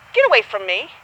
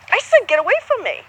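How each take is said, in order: First: Said in the usual way. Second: Firm, higher insistent repeat; a firm I said get away from me, stress on said. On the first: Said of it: "if you told somebody". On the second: Shown as a demonstration. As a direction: say it again with weight on said. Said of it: "you were like".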